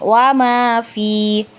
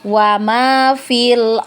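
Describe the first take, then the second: First: The vowel in fi is held long. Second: The vowel in fi is said short. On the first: The reciter stops after this word. "Ketika kita berhenti di kata fi itu, maka huruf fi-nya tetap kita baca panjang" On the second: The reciter continues into the next word. "ketika kita wasol, maka kita baca pendek fi-nya ya"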